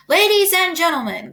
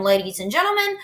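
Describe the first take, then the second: First: Higher, ringing call for attention; announcer. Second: Said in the usual way. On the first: A narrator's reading. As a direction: call the crowd to order. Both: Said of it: "continued the loudspeaker".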